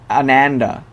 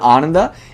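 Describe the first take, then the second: First: The first vowel is an English-style 'a' sound. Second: The first vowel is an 'uh' sound. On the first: The speaker calls it wrong. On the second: The speaker calls it right.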